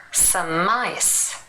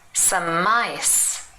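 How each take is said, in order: First: The m links on, sounding like mice. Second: The same.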